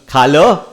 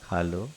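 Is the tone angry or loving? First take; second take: angry; loving. First: It is said harshly and angrily. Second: It is said gently and affectionately. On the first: It is a harsh order to eat. The speaker calls it wrong. "और गुस्से में" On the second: It is a kind invitation to eat. The speaker calls it right. "प्रेम से कैसा बोलते हो?"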